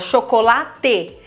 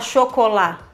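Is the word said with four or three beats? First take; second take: four; three. First: The word is said in four even beats. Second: The word is said in three even beats. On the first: The speaker calls it right. "Falou 4 sílabas, tem que bater 4 palmas" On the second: The speaker calls it wrong. "Você não fala chocolate"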